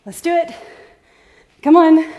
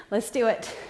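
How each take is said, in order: First: Higher, louder coach rally. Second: Said in the usual way. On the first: Real, not acted. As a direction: pump the class up. Coach rallies tired class.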